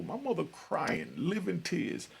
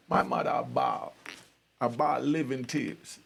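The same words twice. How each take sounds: First: Said in the usual way. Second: Jamaican patois. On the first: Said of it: "Right there, that's a clue". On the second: Shown as a demonstration. Son showing how Jamaicans describe his mother crying, Jamaican accent. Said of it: "what we call in Jamaica".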